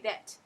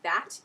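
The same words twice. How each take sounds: First: The vowel is an eh sound. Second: The vowel is an open ah sound. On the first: "you would say that. So it's like an eh sound" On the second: "instead of saying that"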